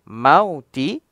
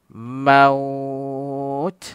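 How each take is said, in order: First: The word ends with a final vowel. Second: The word ends on a final consonant. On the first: The reading continues without stopping. "tulisan mauti" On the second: The reader stops at this word. "ketika wakaf dibaca maut"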